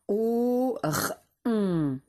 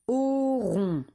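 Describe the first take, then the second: First: "Au r on" as three slow, separate sounds; sounded out. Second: Said in the usual way. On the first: Shown as a demonstration. Teacher helping pupils spell a syllable, sounded out slowly. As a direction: hold "Au", isolate the r, then hold "on". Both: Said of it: "c'est la syllabe".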